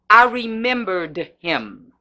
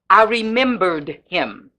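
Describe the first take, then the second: The two takes are said the same way.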